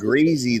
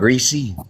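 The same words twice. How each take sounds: First: The middle consonant is a z sound. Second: The middle consonant is an s sound. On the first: The speaker calls it right. "you pronounce it greasy though" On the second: The speaker calls it wrong. "not greasy"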